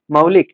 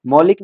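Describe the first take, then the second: First: मौलिक with a gliding "au": "mau-lik"; correct "au" diphthong. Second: मौलिक mispronounced as "molik"; wrong "o" vowel. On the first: Teacher repeating the correction, मौलिक as "mau-lik". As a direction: widen the first vowel of मौलिक to औ. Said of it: "मौलिक नहीं, मौलिक". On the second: Teacher repeating the error to reject it, मौलिक as "molik". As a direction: keep a pure ओ at the start of मौलिक. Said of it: "मौलिक नहीं". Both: Shown as a demonstration.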